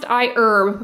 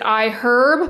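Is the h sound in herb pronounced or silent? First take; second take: silent; pronounced. First: The h sound at the start of herb is silent. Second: The h sound at the start of herb is pronounced. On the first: The speaker calls it right. "it is pronounced iHerb" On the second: The speaker calls it wrong. "I used to pronounce it iHerb"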